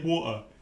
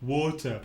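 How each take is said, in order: First: The middle T sound is left out. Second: The middle T sound is clearly pronounced. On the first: "Just miss out the T" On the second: "try and say water"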